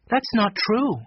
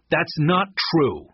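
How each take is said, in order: First: Put-on high, brisker girl's rebuttal; firm contradiction. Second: Drawn-out, higher-pitched denial; slow denial. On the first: Jessie rejects Eddie's motto, firm contradiction. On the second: Eddie denies Tate's accusation, slow denial. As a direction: deny it slowly, leaning on NOT. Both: A narrator's reading.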